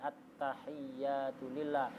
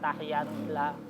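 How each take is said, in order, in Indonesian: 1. Bunyi y dibaca panjang dan ganda. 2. Bunyi y dibaca pendek dan tunggal.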